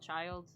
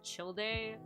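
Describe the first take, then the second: First: The name is said like plain 'child'. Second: The name is not said like plain 'child'. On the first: This is the easier casual pronunciation. "but I call it Child" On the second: This is the technically correct pronunciation. "technically speaking, the pronunciation is Childe"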